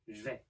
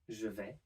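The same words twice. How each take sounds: First: The vowel of je is dropped entirely. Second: The vowel of je is fully pronounced.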